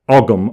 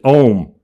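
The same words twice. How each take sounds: First: It is said with the English pronunciation. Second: It is said with the Irish pronunciation. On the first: The speaker calls it wrong. "the English call it Ogham" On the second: The speaker calls it right. "the correct pronunciation is Ogham"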